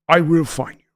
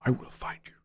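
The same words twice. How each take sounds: First: A hint of Liam Neeson, voiced; lightly voiced movie threat, steady. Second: Whispered Liam Neeson threat. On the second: Retold or imitated. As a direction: breathe it like a calm, deadly threat. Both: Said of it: "I'd love to do Liam".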